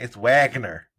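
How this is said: The name is said the American way.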